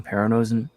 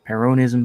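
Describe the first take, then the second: First: Peronism misread with "oh-zum" at the end. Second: Peronism ending cleanly in "niz-um"; corrected Peronism. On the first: Reading a viewer's comment aloud, Peronism slipped into "Pero-no-zum". Self-correcting a misread word. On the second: Fixing a misread viewer comment, Peronism ending in "niz-um". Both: Real, not acted.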